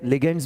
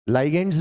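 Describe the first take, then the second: First: The first syllable has a short 'i' vowel. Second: The first syllable has a long 'eye' vowel. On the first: "more common जो है वो लिगेंड्स होता है" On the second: "लाइगेंड्स भी बोलते हैं"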